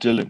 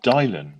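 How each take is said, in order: First: Dylan is said the familiar, usual way. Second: Dylan is said as its letters suggest. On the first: The speaker calls it right. "he thought [name] was called" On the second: The speaker calls it wrong. "D Y L A N. So he said all him and all his mates they pronounced it"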